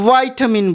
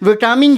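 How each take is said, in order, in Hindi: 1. इसे अमेरिकी उच्चारण में कहा गया है। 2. इसे ब्रिटिश उच्चारण में कहा गया है। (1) "अमेरिकन में इसी को वाइटामिन बोलते हैं" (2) "विटामिन जो है ब्रिटिश इंग्लिश प्रोनाउंसिएशन है"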